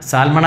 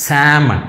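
First: സാൽമൺ said with the l sounded; the mistake, l clearly said in സാൽമൺ; wrong pronunciation. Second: സാമൺ with a silent l, saa-mun; no l, just സാമൺ; correct pronunciation. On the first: Teacher shows students the wrong way: സാൽമൺ with a sounded l. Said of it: "സാൽമൺ അല്ല". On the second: Teacher models the right way for students: സാമൺ without the l. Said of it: "എല്ല് silent ആണ്". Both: Shown as a demonstration.

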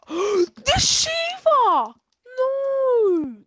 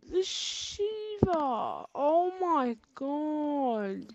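First: High, loud, slow shout with a gasp; real exasperated yell; anguished shout. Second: Real tearful despair at being killed again; despairing wail. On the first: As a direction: howl it out at being killed again. Killed once more by that weapon. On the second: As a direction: whimper it out, beaten. Killed once more, despairing. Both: Real, not acted.

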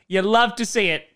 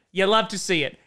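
Both takes have the same delivery.

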